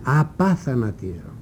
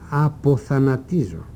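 First: The second syllable has an 'a' vowel. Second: The second syllable has an 'o' vowel. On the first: The speaker calls it right. "που είναι και το σωστό" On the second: The speaker calls it wrong. "Το πρώτο το ακούμε και το λέμε συχνά «αποθανατίζω»"

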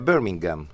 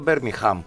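First: No 'h' sound is heard before the last syllable. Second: An 'h' sound is heard before the last syllable. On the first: The speaker calls it right. "δεν προφέρεται" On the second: The speaker calls it wrong. "που λέμε εμείς"

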